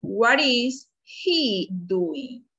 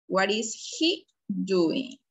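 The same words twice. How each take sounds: First: Very slow, drawn-out classroom question; lingering, clearly separated words; slow modelled question. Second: Slow but less stretched question; measured, unforced classroom repeat; question repeated more evenly. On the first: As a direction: stretch every word for learners. Teacher models question word by word. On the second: Teacher repeats question lower, less drawn-out. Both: Shown as a demonstration.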